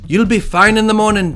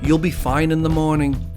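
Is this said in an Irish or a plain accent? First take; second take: Irish; plain. First: It is said in a put-on Irish accent. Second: It is said in the speaker's ordinary accent.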